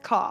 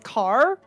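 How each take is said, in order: First: The final r sound is dropped. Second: The final r sound is pronounced. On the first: "it just sounds like C A for us, where it's just car" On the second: "he would have to say it as car"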